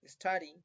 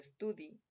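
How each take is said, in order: First: "study" said as "es-TAH-dee"; corrected pronunciation. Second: "study" said Spanish-style as "es-TOO-dee"; mispronounced slip. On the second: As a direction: say "study" with an oo vowel, like "estudi". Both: Shown as a demonstration. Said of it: "perdón".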